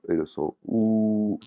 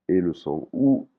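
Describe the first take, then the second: No difference in how they are said.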